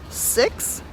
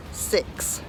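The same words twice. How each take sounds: First: Six with the Kiwi vowel, close to sux. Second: Six with the Australian vowel, close to seeks; Aussie six. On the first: Kiwi vlogger showing viewers the New Zealand six. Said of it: "New Zealanders would say the number six". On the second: Kiwi vlogger showing viewers the Australian six. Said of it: "Australians would say six". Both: Shown as a demonstration.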